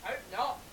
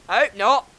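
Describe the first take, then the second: First: Very soft, raised-pitch aside; quiet dig. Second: Said in the usual way. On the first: Real, not acted. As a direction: slip it in under the host's sign-off. Muttered dig at the sign-off, then repeated.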